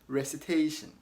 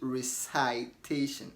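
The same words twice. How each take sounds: First: The second vowel is a short 'i' sound. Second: The second vowel sounds like 'eye', as in recite. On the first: The speaker calls it right. "So say recitation" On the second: The speaker calls it wrong. "and not recitation"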